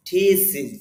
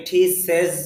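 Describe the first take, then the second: First: Thesis as "tee-siz", with i in the ending; two clear syllables in thesis, ending "-siz"; correct pronunciation. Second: Thesis as "tee-sez", with e in the ending; common mispronunciation. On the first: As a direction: model thesis carefully, long "tee" then short "siz". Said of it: "তাহলে উচ্চারণটা হবে". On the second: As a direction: show the wrong thesis, last syllable "sez". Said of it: "thesis হবে না উচ্চারণটা". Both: Shown as a demonstration.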